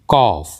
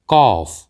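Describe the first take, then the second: The two takes are said the same way.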